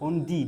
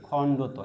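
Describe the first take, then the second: First: The name ends in a 'dee' sound. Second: The name ends in a 'toh' sound. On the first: The speaker calls it wrong. "ডি ই sound করি আমরা" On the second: The speaker calls it right. "এভাবে উচ্চারণ করতে হবে"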